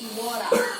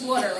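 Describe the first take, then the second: First: It is said in an Australian accent. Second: It is said in an American accent. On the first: "in Australian accent it's water" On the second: "in American accent"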